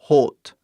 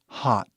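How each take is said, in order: First: The vowel is a closed O sound. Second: The vowel is a very open A-like sound. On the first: The speaker calls it wrong. "Algo fechado" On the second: The speaker calls it right. "a pronúncia tipicamente sai O"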